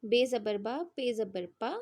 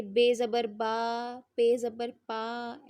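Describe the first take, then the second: First: Short clipped बा and पा, said quickly; quick short reading. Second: Stretched vowels, slow, the wrong way; drawn-out wrong reading. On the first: Teacher showing the correct quick reading to students. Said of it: "जल्दी पढ़ेंगे". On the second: Teacher demonstrating the wrong stretched reading of बा and पा. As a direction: drag out बा and पा slowly, as the teacher warns not to. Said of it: "ऐसे नहीं पढ़ेंगे". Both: Shown as a demonstration.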